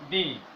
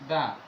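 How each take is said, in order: First: The vowel is a long ee sound. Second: The vowel is a short uh sound. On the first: The next word starts with a vowel. "if the is used before a vowel, the pronunciation will be" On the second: The next word starts with a consonant. "If the is used before a consonant, the pronunciation will be"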